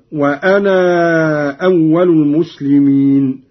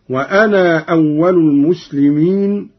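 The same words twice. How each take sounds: First: وأنا with "naaa" stretched long before أول; long madd. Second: وأنا with a short final alif before أول; short qasr. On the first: Teacher showing Qalun's second option, وأنا with prolonged "naaa". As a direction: hold the final alif of وأنا, then أول. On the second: Teacher showing Qalun's first option, وأنا with short "naa". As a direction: keep the "naa" of وأنا brief. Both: Shown as a demonstration. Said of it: "له فيه المد والقصر هكذا".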